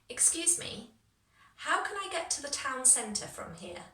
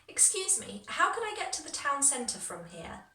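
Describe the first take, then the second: First: It is said more slowly. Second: It is said faster.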